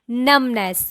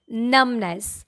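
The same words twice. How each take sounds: First: The middle B is silent. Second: The same.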